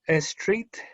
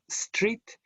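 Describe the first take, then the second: First: An extra vowel sound comes before the s. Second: The word starts directly with the s sound. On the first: The speaker calls it wrong. "some Spanish speakers will say" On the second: The speaker calls it right. "instead of"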